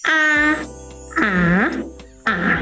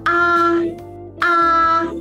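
First: The pitch falls sharply from high to low. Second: The pitch stays high and level. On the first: "เสียงที่4 ตกลงจาก5 มา1" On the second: "ถ้าเป็นอาภาษาจีนมันคือ5 ไป5 มันจะสูงกว่านะคะ"

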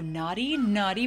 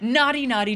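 First: It is read in a suggestive, seductive tone. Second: It is read in a plain, ordinary tone. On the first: "Not safe for work, letter reading, mode activated" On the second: "I feel like I made it sound a little off"

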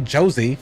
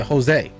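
First: The name begins with a J sound. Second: The name begins with an H sound. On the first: The speaker calls it wrong. "You don't say Josie" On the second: The speaker calls it right. "you say Jose"

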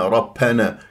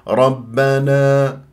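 First: The 'b' is released with a puff of air. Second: The 'b' is crisp with no puff of air. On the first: The speaker calls it wrong. "كأنه فيها هواء" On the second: The speaker calls it right. "ليس فيها هواء"

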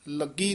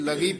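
First: The middle consonant is doubled and held. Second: The middle consonant is short and soft. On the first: The speaker calls it wrong. "ਲੱਗੀ ਨਹੀਂ ਕਹਿਣਾ ਹੈ" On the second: The speaker calls it right. "ਇਹ ਲਗੀ ਪਦ ਉਚਾਰਨ ਕਰਨਾ ਹੈ"

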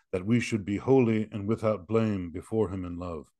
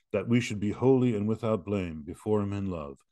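No difference in how they are said.

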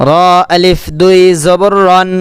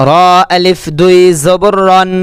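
The two takes are said the same way.

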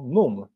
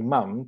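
First: The vowel is the regional British one. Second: The vowel is the standard southern British one. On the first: This is how people far from London say it. "tylko mówią produkt albo under, albo mum" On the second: This is the taught, London-area pronunciation. "nie mówią product, under i mam"

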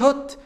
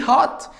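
First: The vowel is a short rounded 'o'. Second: The vowel is a long open 'ah'. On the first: The speaker calls it wrong. "ما تقوليش hot" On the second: The speaker calls it right. "قول لي hot"

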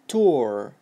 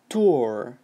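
First: It is said with an American accent. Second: The same.

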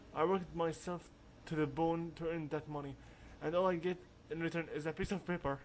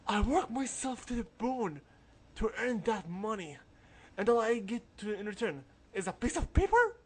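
First: It is said in the speaker's own voice. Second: It is said in a mocking imitated accent.

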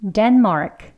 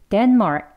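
First: The final k is clearly released with a puff. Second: The final k is cut off without release. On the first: "목구멍 이제 막았다가 크 하면 되겠죠?" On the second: "이 크라는 소리를 굳이 다 내지는 않습니다"

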